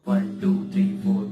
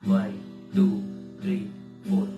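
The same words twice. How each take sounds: First: The counting is quick and close together. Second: The counting is slow and spread out. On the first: "इसका tempo हम अगर बढ़ाते हैं" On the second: "slow tempo में"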